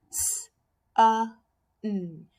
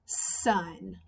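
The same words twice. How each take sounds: First: "S, uh, n" as sun split into hiss, short u, held n; "S, uh, n" tapped out phonetically, sound by sound. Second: Said in the usual way. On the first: Shown as a demonstration. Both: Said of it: "you can tap out the word".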